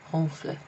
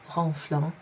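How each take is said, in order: First: The final ending is left silent. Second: The final ending is pronounced aloud. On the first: The speaker calls it right. "It's as if that isn't there. It's kind of silent" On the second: The speaker calls it wrong. "So it's not ronflant"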